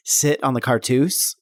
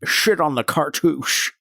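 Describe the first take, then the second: First: Said in the usual way. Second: "Shit" with a slushy sh in place of s; slurred Sean Connery. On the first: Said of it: "it sounds like I was saying". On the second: Pretend. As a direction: say "Shit on the cartouche" with a Connery lisp. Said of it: "it sounds like I was saying, "Sit on the cartouche".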